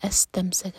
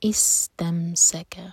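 First: The word begins with an 'a' vowel. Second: The word begins with a vowel other than 'a'. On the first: The speaker calls it wrong. "یہاں پر ہم فتح لگا کر نہیں پڑھ سکتے, استمسک نہیں پڑھا جائے گا" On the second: The speaker calls it right. "اگر الگ الگ پڑھیں فقد تو نیکسٹ ورڈ جو ہے وہ پڑھا جائے گا استمسک"

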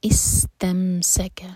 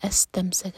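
First: The word begins with an 'i' vowel. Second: The word begins with an 'a' vowel. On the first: The speaker calls it right. "ہم کسرہ لگا کر حمزۃ الوصل کو پڑھیں گے" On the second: The speaker calls it wrong. "فتح لگا کر نہیں پڑھ سکتے"

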